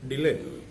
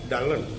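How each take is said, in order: First: The first syllable does not sound like dull. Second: The first syllable sounds like the word dull. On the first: "wanted his name to be pronounced as Dylan" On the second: "the word was pronounced like uh, Dallin, and the people might regard him as a dull person"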